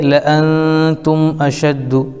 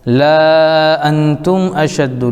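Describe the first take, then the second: First: The vowel after 'la' is kept short. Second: The vowel after 'la' is drawn out long. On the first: The speaker calls it right. "पढ़ेंगे ... अलिफ को छोड़ देंगे" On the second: The speaker calls it wrong. "लिखा हुआ है"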